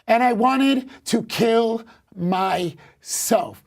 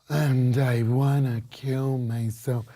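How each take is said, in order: First: It is said without a stereotypically depressed tone. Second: It is said in a stereotypically depressed tone. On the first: The speaker calls it right. "I said the same thing with just a different intent" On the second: The speaker calls it wrong. "you sounding depressed does not have to sound"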